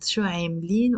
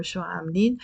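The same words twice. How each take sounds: First: عاملين with eh first, "ehm-leen"; eh pronunciation. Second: عاملين with aa first, "aam-leen"; open aa pronunciation. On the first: Teacher giving both plural variants, عاملين with eh. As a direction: start عاملين on a long eh. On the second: Teacher giving both plural variants, عاملين with aa. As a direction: start عاملين on an open long aa. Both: Shown as a demonstration. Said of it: "we can also pronounce it".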